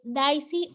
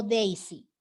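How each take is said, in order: First: Daisy said as DAI-si, first vowel like "eye"; spelling pronunciation. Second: Daisy said as DEI-si, first vowel like "day"; English-style pronunciation. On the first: Teacher checking a student's name, Daisy pronounced DAI-si. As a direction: say Daisy as written in Spanish, DAI-si. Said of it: "¿es Daisy o Daisy?". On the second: Teacher checking a student's name, Daisy pronounced DEI-si. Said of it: "se pronuncia Daisy". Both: Shown as a demonstration.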